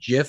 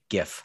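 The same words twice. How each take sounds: First: The word begins with a soft J sound. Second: The word begins with a hard G sound. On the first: It names the peanut butter brand. The speaker calls it wrong. "GIF is peanut butter" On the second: It names the image file format. The speaker calls it right. "GIF with a hard G"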